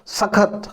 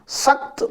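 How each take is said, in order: First: A short vowel follows the kh sound. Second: The kh runs straight into the t sound. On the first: "यदि इसको पूरा ख बोला जाए" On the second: "स आधा ख त"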